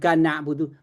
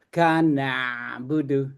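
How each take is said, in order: First: The phrase is choppy and rushed. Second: The phrase flows smoothly with a pressed sound. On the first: The speaker calls it wrong. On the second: The speaker calls it right. "Kana budu mengalir ya"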